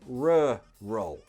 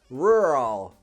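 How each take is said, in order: First: British accent, with two distinct separate sounds. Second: American accent, with the sounds smushed together. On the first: "in British English, you hear more of a distinct two separate sounds" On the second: "In American English, it sounds a bit strange because the sounds smush together"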